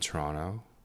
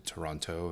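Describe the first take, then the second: First: Some syllables are dropped in a quick form. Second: Every syllable is clearly pronounced. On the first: The speaker is a local from the city. "Notice I said Toronto because Torontonians will call Toronto Toronto" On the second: The speaker sounds like an outsider. "pronouncing all the syllables"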